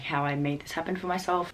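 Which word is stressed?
none. The word myself carries no special stress.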